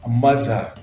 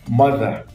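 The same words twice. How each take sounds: Both takes have the same delivery.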